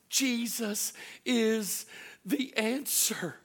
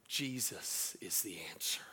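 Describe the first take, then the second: First: Higher, louder, very slow proclamation; preaching climax. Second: Soft, low whisper of reassurance; whispered comfort. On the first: Acted. Pastor declaring hope to the congregation, slow and loud. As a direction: proclaim each word, drawn out. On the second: Retold or imitated. Pastor comforting a crying nurse, slow whisper. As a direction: breathe it gently, slowly.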